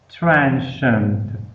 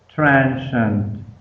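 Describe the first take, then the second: No difference in how they are said.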